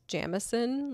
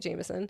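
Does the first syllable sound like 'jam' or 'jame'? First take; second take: jam; jame. First: The first syllable sounds like 'jam'. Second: The first syllable sounds like 'jame'. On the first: This is the local way, but it may sound pretentious. The speaker calls it right. "which I think is pronounced Jamison" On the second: This is the usual way everyone else says it. The speaker calls it wrong. "I've been doing it wrong the whole time"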